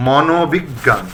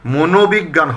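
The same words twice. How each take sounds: First: মনোবিজ্ঞান said as "mɔnobiggan"; correct open vowel. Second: মনোবিজ্ঞান said as "monobiggan"; closed "mo" opening মনোবিজ্ঞান; mistaken close o. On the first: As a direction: say মনোবিজ্ঞান with an open aw, "maw-no-big-gan". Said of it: "এটা মনে রাখতে হবে". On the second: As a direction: say মনোবিজ্ঞান with a rounded first o, "mo-no-big-gan". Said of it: "হবে না". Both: Shown as a demonstration.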